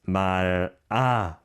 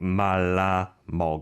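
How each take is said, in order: First: The L sound is single, like 'mara'. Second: The L sound is doubled, like 'malla'. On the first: The speaker calls it right. "but it's 말아 먹어 in this case" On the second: The speaker calls it wrong. "people think 말라 먹어"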